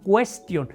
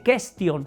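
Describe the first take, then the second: First: The u after the q is pronounced. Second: The u after the q is silent. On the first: The speaker calls it right. "en latín la U sí suena" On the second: The speaker calls it wrong. "no se dice question"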